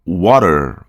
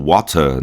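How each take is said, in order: First: "water" with American flapped T and final R; American English accent. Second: "water" British, crisp T and no final R; British English accent. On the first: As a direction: say "water" slowly, American style. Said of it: "em inglês americano". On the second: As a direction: end British "water" on a weak vowel. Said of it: "Em inglês britânico". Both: Shown as a demonstration.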